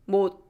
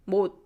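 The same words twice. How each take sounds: First: The final consonant is a silent tongue stop. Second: The same.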